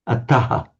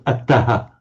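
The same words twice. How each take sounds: The two takes are said the same way.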